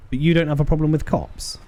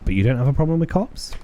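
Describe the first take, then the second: First: "cops" falls, as in a statement; falling statement. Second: "cops" lifts high as a question; rising question. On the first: Detective sounding out a local on police, "cops" falling. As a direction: stress "you" high, then drop on "cops". First take, read as statement. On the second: Detective asking a local about police, "cops" rising. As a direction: climb steadily to a questioning rise on "cops". Same line redone as question. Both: Acted.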